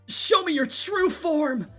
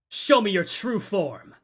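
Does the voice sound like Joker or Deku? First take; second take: Deku; Joker. First: It is said in a Deku impression voice. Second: It is said in a Joker impression voice.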